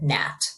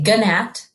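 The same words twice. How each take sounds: First: No G sound is heard before the N. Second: A G sound is heard before the N. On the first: The speaker calls it right. "The G is silent and we just hear gnat" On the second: The speaker calls it wrong. "We don't say gnat"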